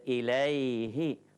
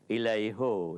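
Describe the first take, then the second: First: The last syllable has an 'i' vowel. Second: The last syllable has an 'u' vowel. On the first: The speaker calls it right. "in respect of this kasra, they say ilayhi" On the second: The speaker calls it wrong. "When I say ilayhu, it doesn't look nice"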